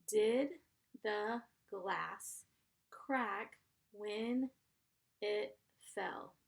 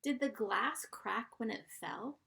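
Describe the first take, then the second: First: "Did" "the glass" "crack when" "it fell" split with pauses; slow dictation for young writers; word by word. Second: Said in the usual way. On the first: Shown as a demonstration. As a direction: dictate it in chunks for spelling. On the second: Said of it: "Here's sentence number two".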